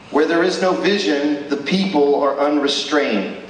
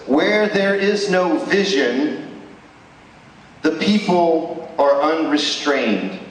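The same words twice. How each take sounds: First: Said in the usual way. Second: Slow, weighty reading of the verse, rising on "Where". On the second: Shown as a demonstration. Preacher reading the verse to the congregation, slow and weighty. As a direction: let each word of the verse land slowly. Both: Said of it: "It says this".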